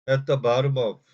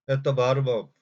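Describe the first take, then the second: No difference in how they are said.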